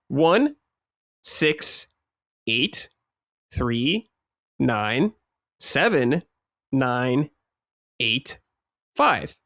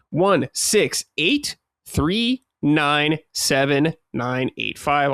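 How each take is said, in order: First: The digits are read at a slower pace. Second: The digits are read at a quicker pace.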